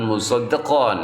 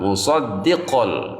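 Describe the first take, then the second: First: The final n is pronounced clearly and kept. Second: The final n is merged into an l sound. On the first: The speaker calls it wrong. "jangan musaddiqan ya, karena sudah dilebur ya" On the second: The speaker calls it right. "Kita masukkan ya tanwin tersebut kepada huruf lam"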